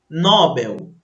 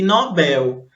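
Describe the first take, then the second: First: The stress is on the first syllable. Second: The stress is on the last syllable. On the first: The speaker calls it wrong. "elas poderiam pronunciar como paroxítonas" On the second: The speaker calls it right. "O certo seria ... Nobel, porque elas são oxítonas"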